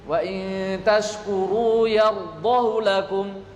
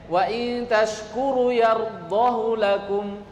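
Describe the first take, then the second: Both takes have the same delivery.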